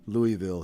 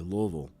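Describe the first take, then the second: First: The first part sounds like the name Louis. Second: The 'i' sound in the first part is dropped. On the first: This is how outsiders say it. The speaker calls it wrong. "we don't say Louisville here" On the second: This is how locals say it. The speaker calls it right. "The I is silent. There is no Louis"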